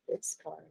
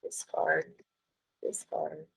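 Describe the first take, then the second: First: Fading to near silence; fading mutter. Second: Muttered under her breath, much softer. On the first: Teacher trailing off while closing files. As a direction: let it die away under your breath. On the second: Teacher muttering to herself while closing files. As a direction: mutter it to yourself while clicking. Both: Real, not acted. Clicking through dialogs, muttering.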